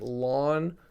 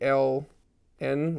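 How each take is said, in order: First: It is spoken as one syllable. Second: Each letter is spoken separately. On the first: The speaker calls it wrong. "please don't pronounce it lon" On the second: The speaker calls it right. "like the letters"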